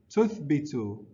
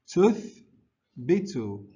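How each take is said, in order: First: The word is said quickly, run together. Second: The word is said slowly, in two parts. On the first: "Now let's say it faster" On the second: "let's try to say the whole word"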